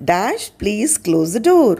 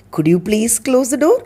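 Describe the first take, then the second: First: Said in the usual way. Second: "Could you please close the door?" asked politely with a rising end; gentle polite request. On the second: Shown as a demonstration. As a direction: ask it nicely, lifting at the end. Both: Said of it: "அது இன்னும் பொலைட்டா".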